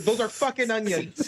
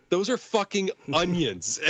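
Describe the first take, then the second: First: Slow deadpan. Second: Deadpan quote. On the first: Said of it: "He's like". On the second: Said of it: "Dan Stevens goes". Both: Retold or imitated.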